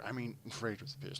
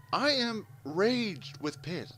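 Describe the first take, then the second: First: Said in the usual way. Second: High, slow, emphatic recounted anger; retold rage. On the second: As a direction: stretch out the fury, half-comic. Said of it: "I'm pissed".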